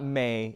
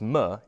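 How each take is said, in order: First: The m is followed by an ay vowel. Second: The m is said with no vowel after it. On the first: The speaker calls it wrong. "It's not may" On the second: The speaker calls it right. "so it's m"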